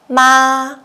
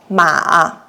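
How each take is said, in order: First: The pitch stays high and level. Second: The pitch dips low, then rises. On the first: It means mother. "we use the first tone" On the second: It means horse. "with the third tone"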